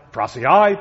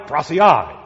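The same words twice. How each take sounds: First: Prasiai called out loud with a rising end; emphatic Greek word. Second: Prasiai called out loud with a falling end; emphatic Greek word. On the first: Preacher echoing Mark's double word, loud and rising. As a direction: ring out prasiai like a call. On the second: Preacher echoing Mark's double word, loud and falling. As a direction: land prasiai firmly on the fall. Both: Shown as a demonstration. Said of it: "Mark says it twice for emphasis".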